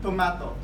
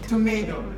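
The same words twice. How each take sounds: First: It is said with a British accent. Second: It is said with an American accent. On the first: "the British English they pronounce it tomato" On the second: "American English they pronounce it tomato"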